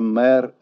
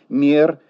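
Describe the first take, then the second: First: The consonant before the vowel is hard. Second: The consonant before the vowel is soft. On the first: The speaker calls it wrong. "Произношение твердого согласного перед «э» в русском языке недопустимо" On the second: The speaker calls it right. "Следует говорить «мер»"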